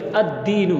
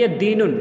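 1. शब्द 'n' के बिना एक स्वर पर खत्म होता है। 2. शब्द के अंत में एक अतिरिक्त 'n' की आवाज़ जुड़ती है। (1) "बल्कि अद्दीनू" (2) "ये इसमें तनवीन नहीं आएगी अद्दीनुन"

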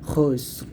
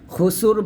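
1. s আর r কোনো স্বরধ্বনি ছাড়াই একসাথে উচ্চারিত হয়। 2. s আর r-এর মাঝে একটি অতিরিক্ত 'u' স্বরধ্বনি বসে। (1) "এরকম খুসর" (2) "খুসুর বলা যাবে না"

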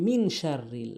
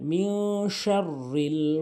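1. n ধ্বনিটি স্পষ্টভাবে বলা হয়, নাসিকীভূত হয় না। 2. n ধ্বনিটি নাক দিয়ে লুকিয়ে বলা হয়। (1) "আমরা অধিকাংশ লোক বলি" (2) "ইকফা করবেন, নাকের ভিতরে নেবেন"

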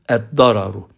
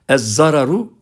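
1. Kelime d sesiyle söylenir. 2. Kelime z sesiyle söylenir. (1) "Arapça bunun okunuşu eddararu" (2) "Ez-zararu okumak yanlıştır"

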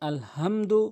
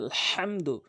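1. 'h' একটি সাধারণ, হালকা 'হ' ধ্বনি। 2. 'h' গলার গভীর থেকে উচ্চারিত হয়। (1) "আপনার নামাজ ভেঙে যাবে, অশুদ্ধ তেলাওয়াত" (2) "হাটি হচ্ছে হলকের মাঝখানে"

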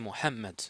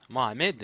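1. Le nom se prononce à l'arabe. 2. Le nom se prononce à la française. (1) "mais en effet, ça, c'est Mohamed" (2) "normalement en français il va lire Mohamed"

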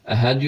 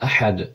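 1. H sesi düz, basit bir nefestir. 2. H sesi boğazın derinliğinde çıkarılır. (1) "Əhəd yox" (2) "boğaz ortası tələffüz olunur"

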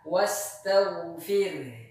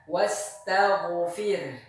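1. Bunyi gh halus dan stabil. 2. Bunyi gh memantul seperti gema. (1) "yang benar adalah wastawfir" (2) "mengkolkolahkan huruf ghain bertanda sukun"

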